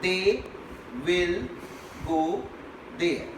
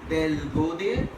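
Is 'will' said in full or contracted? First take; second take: full; contracted. First: The word will is said in full. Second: The word will is contracted onto they. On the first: It is read out formally. "You read the sentence" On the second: It is casual conversational speech. "if you speak in the conversational tone"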